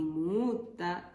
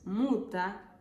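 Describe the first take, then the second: First: "muta" with the u held long; drawn-out double u in "muta"; long double vowel. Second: "muta" with a brief single u; quick, single-vowel u in "muta"; short vowel. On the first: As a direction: stretch the u in "muta" to double length. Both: Shown as a demonstration. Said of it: "En finés hay vocales dobles".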